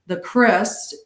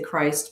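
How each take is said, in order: First: The word is said with an unusual pronunciation. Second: The word is said the everyday English way. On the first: This is the original form of the word. "that's how it's supposed to be pronounced" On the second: This form is used so listeners understand. "but we say Christ because people wouldn't understand"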